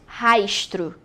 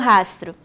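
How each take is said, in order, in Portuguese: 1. O s é um chiado, como sh. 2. O s é um s sibilante simples. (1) "que é com esse chiado" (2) "Eu falo rastro"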